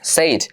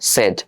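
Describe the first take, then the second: First: The vowel is a long 'ay' sound. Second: The vowel is a short 'eh' sound. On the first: The speaker calls it wrong. "তোমরা উচ্চারণ এটা উচ্চারণ করো সেইজ" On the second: The speaker calls it right. "এটার উচ্চারণ হচ্ছে তোমার সেড"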